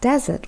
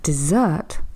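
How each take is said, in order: First: The stress is on the first syllable. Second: The stress is on the last syllable. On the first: It names a hot, sandy place. "with the stress at the beginning" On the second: It names a sweet pudding after dinner. "stressing on the last syllable"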